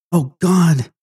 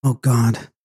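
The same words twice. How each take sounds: First: Higher, louder cry of dread; panicked plea bursting out; terrified outcry. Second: Understated gasped prayer of dread; a touch of fear, held in; fearful exclamation. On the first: Terrified Flora cries out, escalating. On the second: Terrified Flora cries out to God. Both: A narrator's reading.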